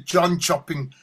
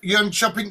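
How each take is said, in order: First: The name begins with a J sound. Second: The name begins with a Y sound. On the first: "it's not a silent J... It's a John shopping" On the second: "It's not a Y"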